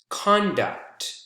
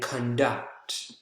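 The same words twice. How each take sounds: First: The stress is on the first syllable. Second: The stress is on the second syllable. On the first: It is a noun. "the first syllable" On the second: It is a verb. "the second syllable"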